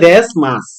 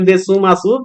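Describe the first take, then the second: First: The final u sound is dropped. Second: The final u sound is fully pronounced. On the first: The speaker calls it right. "কিন্তু উচ্চারণ হবে দেশ মাস" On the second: The speaker calls it wrong. "যদিও রোমাজিতে লিখবেন দেসু মাসু"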